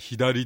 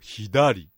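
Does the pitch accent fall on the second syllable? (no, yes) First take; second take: no; yes. First: The accent is not on the second syllable. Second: The accent is on the second syllable. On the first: This is the standard Japanese way. "標準語では左" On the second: This is the Niigata dialect way. "新潟弁ですと左、ね、2 文字目のダにアクセントです"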